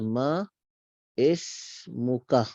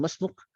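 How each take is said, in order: First: The two words are said apart, fully. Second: The two words run together quickly.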